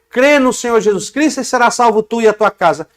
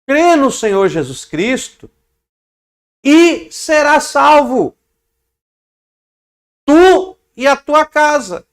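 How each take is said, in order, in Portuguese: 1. Não há pausa antes da frase final. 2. Há uma pausa antes da frase final. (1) "Não é" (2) "Olha a pausa"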